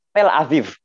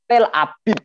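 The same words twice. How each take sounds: First: "Tel Aviv" dengan V tipis di akhir. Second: "Tel Abib" dengan B tegas, bukan V; lafal Misrahim. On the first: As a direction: ucapkan "Aviv" pakai bunyi V yang lembut. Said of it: "dia mengucapkannya pakai V". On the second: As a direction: tutup "Abib" dengan bunyi B. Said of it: "kalau orang Misrahim enggak". ("Tel Abib" gaya Misrahim, B berdages) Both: Shown as a demonstration.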